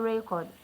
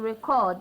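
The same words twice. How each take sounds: First: The stress is on the first syllable. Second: The stress is on the second syllable. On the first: It names a thing. "This is a noun. So the stress is on the first syllable" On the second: It names an action. "So the stress is on the second syllable. This is a, a verb"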